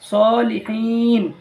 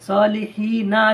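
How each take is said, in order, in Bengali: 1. শব্দটি ব্যঞ্জন n দিয়ে শেষ হয়। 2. শব্দটি একটি শেষ স্বরধ্বনি দিয়ে শেষ হয়। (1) "হিন বলে ছাড়বেন" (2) "সলিহিনা আছে"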